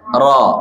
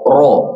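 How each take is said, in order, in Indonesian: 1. Vokal itu diucapkan dengan mulut terbuka lebar. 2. Vokal itu diucapkan dengan bibir membulat dan monyong ke depan. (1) "harusnya mangap saja" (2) "jangan dibaca ... Kurang tepat"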